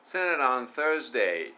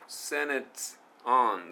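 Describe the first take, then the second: First: "Senate on Thursday" linked, with the t of "Senate" flowing into "on"; linked pronunciation. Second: "Senate" then "on" split apart, word by word; choppy pronunciation. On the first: Teacher showing students the English link, "Senate on" joined smoothly. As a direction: join "Senate" and "on" without a break. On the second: Teacher mimicking a learner's choppy "Senate on". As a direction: break "Senate" off from "on". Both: Shown as a demonstration. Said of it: "onじゃなくて".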